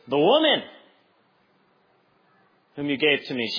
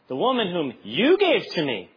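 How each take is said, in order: First: The stress falls on the word woman. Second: The stress falls on the word you. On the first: The woman is to blame. "it's either something like this" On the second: The listener is to blame for giving her. "Or you could take it the other way"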